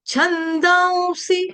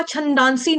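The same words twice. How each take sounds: First: High, slow छंदांसी as chhandaun-si; correct pronunciation. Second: छंदांसी with a plain 'n', chhan-daan-si; quick spoken छंदांसी, no 'u' glide; wrong pronunciation. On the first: Teacher giving the right form, slow high nasal-glide pronunciation. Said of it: "तो यहाँ पे आपका जो उच्चारण होगा". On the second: Teacher saying how it won't be, plain-n mispronunciation. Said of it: "छंदांसी नहीं होगा". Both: Shown as a demonstration.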